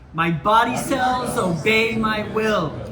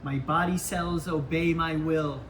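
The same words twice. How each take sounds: First: It is said loudly with lots of energy. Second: It is said at ordinary speaking volume. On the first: "in a loud, energetic voice" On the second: "with a normal speaking voice"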